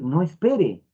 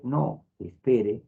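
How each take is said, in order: First: "no espere" run together in one breath; "no espere" as one phrase, no comma; no pause. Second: Slow, with a clear pause after "no"; "no" then a pause, then "espere". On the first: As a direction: say "no espere" with no break. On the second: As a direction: say "no, espere" slowly, breaking after "no". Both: Shown as a demonstration. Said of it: "No es lo mismo decir".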